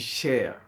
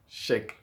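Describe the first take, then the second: First: The word ends with a soft throat sound. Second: The word ends with a hard K sound. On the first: This is the Arabic pronunciation. "en arabe, on dit cher" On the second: This is the French pronunciation. "en français, on dit chèque"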